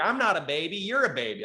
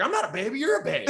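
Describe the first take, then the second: First: Put-on higher childish comeback; kid's comeback. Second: Put-on higher, whiny childish echo; mimicking the kid. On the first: Kid fires back at the comic in a childish voice. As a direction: talk back like a stung kid. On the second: Comic mocks the kid's comeback in a higher whiny voice. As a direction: parrot him like a bratty kid.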